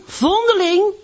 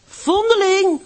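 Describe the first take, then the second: First: High, loud jeering call, rising at the end; sing-song it back up, mocking; boys calling out. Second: High, loud jeering call, falling; boys calling out. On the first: The oil merchant's boys taunting Hanneske on the way to school, rising shout. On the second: Acted. The oil merchant's boys taunting Hanneske on the way to school, shouting. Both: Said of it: "riepen de jongens van de olieboer".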